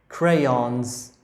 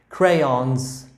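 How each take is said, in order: Both takes have the same delivery.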